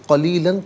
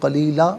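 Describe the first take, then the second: First: The word ends with an n sound. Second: The word ends with a long a vowel. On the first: The reading continues without stopping. "क़लीलन पढ़ेंगे" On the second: The reader stops here. "वफ़ की सूरत में क़लीला पढ़ा जाएगा"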